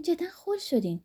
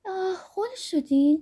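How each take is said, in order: First: High teasing giggle falling on «خل»; «خل» stressed, tune falling away; laughing scold, «جدا خل شدین» dropping; melodious little laugh. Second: High, slow, lilting tease with a giggle; playful giggling reproach on «خل شدین»; melodious little laugh. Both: A narrator's reading.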